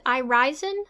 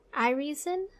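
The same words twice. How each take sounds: First: "Irisen" with an eye sound in the middle, eye-RYE-zen; second pronunciation guess. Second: "Irisen" with a long ee in the middle, eye-REE-zen; tentative name pronunciation. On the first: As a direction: try "Irisen" as eye-RYE-zen, questioning rise at the end. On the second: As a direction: try "Irisen" as eye-REE-zen, questioning rise at the end. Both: Shown as a demonstration. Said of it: "Is it Ear".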